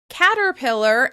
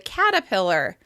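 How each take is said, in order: First: The first R sound is pronounced. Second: The first R sound is dropped.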